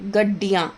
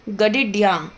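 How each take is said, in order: First: The i vowel follows the doubled d sound. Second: The i vowel splits the d sounds apart. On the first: The speaker calls it right. "हलंत के एकदम बाद वाले word पे मात्रा लगानी है" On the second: The speaker calls it wrong. "ये गडिड्या पढ़ा जा रहा है"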